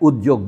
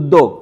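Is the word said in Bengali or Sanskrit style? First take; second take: Sanskrit; Bengali. First: The cluster is said in a Sanskrit-like way. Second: The cluster is said in a Bengali way. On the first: The speaker calls it wrong. "এরাই উদ্যোগ বলে" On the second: The speaker calls it right. "Bangla উচ্চারণ হচ্ছে উদ্যোগ"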